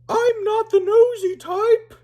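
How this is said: It is said in a different put-on character voice. The speaker calls it right.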